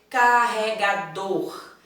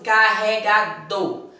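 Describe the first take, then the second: First: The final R sound is clearly pronounced. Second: The final R sound is dropped. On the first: The speaker calls it right. "temos que pronunciar corretamente" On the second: The speaker calls it wrong. "Fala só assim, carregador. Então, esquece. Oxi, o R, cadê?"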